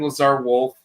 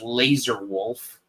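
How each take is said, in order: First: The first word sounds like 'Lazar'. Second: The first word sounds like 'laser'. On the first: The speaker calls it right. "there's a character named Lazar Wolf" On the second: The speaker calls it wrong. "they mispronounce it as Laser Wolf"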